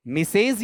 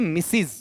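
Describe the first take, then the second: First: मिसेज with a long 'ay' in the second syllable; incorrect pronunciation. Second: मिसिज with short i in both syllables; correct pronunciation. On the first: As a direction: stretch मिसेज into 'mi-sayz'. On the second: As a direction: say मिसिज as 'mi-siz'. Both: Shown as a demonstration. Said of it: "मिसेज नहीं होता है".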